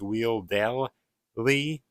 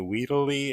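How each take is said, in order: First: The middle L sound is clearly pronounced. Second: The middle L sound is dropped. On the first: The speaker calls it right. "I think you're supposed to pronounce the L" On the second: The speaker calls it wrong. "I don't think that's how you say it"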